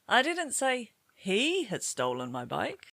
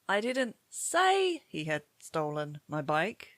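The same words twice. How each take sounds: First: The word "he" carries the main stress. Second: The word "say" carries the main stress. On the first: Somebody else had stolen it. "Perhaps somebody else had stolen it" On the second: It was written rather than spoken. "Maybe you wrote a WhatsApp message"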